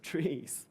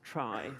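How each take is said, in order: First: The word rhymes with 'see'. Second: The word rhymes with 'sky'. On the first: The speaker calls it wrong. "It's pronounced trees" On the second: The speaker calls it right. "it should probably also be pronounced try"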